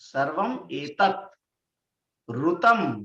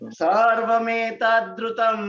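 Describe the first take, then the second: First: The words are said separately, one by one. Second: The words are run together as one.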